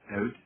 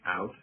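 First: It is said with a Canadian accent. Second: It is said with an American accent. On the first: "Canadians pronounce these words out" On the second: "people in the United States say out"

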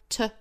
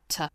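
First: The vowel is a fuller, non-schwa vowel. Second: The vowel is reduced to a schwa. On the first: "不是 schwa sound, 而是一个 t" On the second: "弱读成 schwa sound"

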